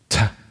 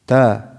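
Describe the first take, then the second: First: The t has a strong puff of breath. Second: The t has almost no puff of breath. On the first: The speaker calls it wrong. "This is how they say it here in North America" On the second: The speaker calls it right. "There's no hamis in it"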